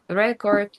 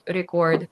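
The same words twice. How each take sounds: First: The stress is on the first syllable. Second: The stress is on the second syllable. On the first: It is used as a noun. "if it's a noun, you have to put the stress on the first syllable" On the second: It is used as a verb. "if it's a verb, it has to be on the second syllable"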